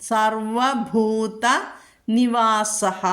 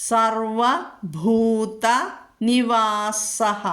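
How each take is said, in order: No difference in how they are said.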